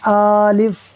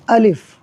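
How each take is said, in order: First: The first vowel is drawn out long. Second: Both vowels are kept short. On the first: The speaker calls it wrong. "यानी या तो हमज़ा को खींच देंगे, आलिफ़ कर देंगे" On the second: The speaker calls it right. "सिंपल सा पढ़ देना है अलिफ़, किसी चीज़ को नहीं खींचना"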